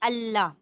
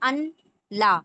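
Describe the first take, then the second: First: The words merge into one with a doubled l. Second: The two words are said separately with an n. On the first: "मिलाकर क्या पढ़ा था हमने?" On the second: "अन ला को मिलाकर"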